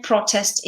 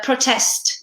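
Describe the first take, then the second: First: Noun "protest", said PRO-test; stress on first syllable. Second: Verb "protest", said pro-TEST; stress on second syllable. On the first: Teacher contrasting noun with verb, "protest" stressed on PRO. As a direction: put the weight on the start of "protest". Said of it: "protest is the noun". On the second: Teacher contrasting verb with noun, "protest" stressed on TEST. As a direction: put the weight on the end of "protest". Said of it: "protest is the verb". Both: Shown as a demonstration.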